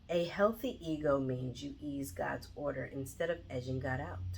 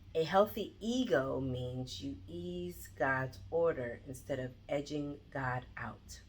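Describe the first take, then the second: First: It is read plainly without special emphasis. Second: Ease, God's, order and edging, God, out are emphasized.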